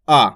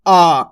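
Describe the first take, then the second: First: आ kept short and quick. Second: आ drawn out as a long 'aa'. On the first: Teacher demonstrating the short vowel, kept brief. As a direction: clip आ off as a short 'a'. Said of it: "इस तरीके से आपको इसको पढ़ना है". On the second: Teacher showing students the long vowel, drawn out. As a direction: stretch आ into a long open 'aaa'. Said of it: "थोड़ा खींच को रहा है". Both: Shown as a demonstration.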